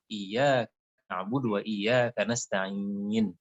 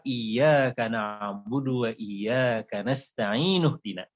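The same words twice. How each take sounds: First: Slow recitation, "nasta'in" held long and closed on n; verse-end stop. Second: Slow recitation, "nasta'inu" ending in -nuh before "dina"; joined verse ending. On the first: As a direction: stretch the last i of "nasta'in", no final vowel. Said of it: "Tapi kalau wakaf". ("nasta'in" waqaf, i panjang ditutup n mati) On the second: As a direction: link "nasta'inu" onward into "dina" with an u. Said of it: "kalau kita sambung". ("nasta'inu dina" disambung dengan akhiran u, tartil) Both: Shown as a demonstration.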